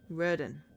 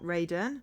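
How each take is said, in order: First: The name begins with a short 'rud' sound. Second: The name begins with a long 'raid' sound. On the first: The speaker calls it right. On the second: The speaker calls it wrong.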